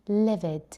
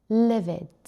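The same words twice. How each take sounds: The two takes are said the same way.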